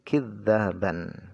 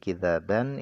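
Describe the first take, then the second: First: The middle consonant is doubled and lengthened. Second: The middle consonant is single and short. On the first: It means calling one another liars. "bisa dibaca dengan tasydid" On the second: It means a lie. "bacanya dengan takhfif"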